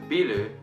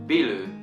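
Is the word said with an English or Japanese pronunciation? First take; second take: Japanese; Japanese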